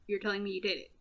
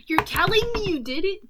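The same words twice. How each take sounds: First: Said in the usual way. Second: High, loud disbelieving question; incredulous. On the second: Acted. Talk show host challenges Joker's confession, incredulous. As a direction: pitch it up in mock shock. Host's line redone, incredulous.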